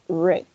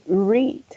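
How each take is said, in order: First: The vowel is short, as in 'red'. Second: The vowel is long, as in 'reed'. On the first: The action happened in the past. "in the past we're going to say read" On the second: The action happens in the present. "in the present we say read"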